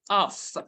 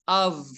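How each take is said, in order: First: The word ends with an f sound. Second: The word ends with a v sound. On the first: The speaker calls it wrong. "it's not off" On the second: The speaker calls it right. "v, not f"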